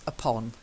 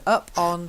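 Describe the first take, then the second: First: It is said as one joined word. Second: It is said as two separate words. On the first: It means on top of something. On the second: It means climbing up onto something.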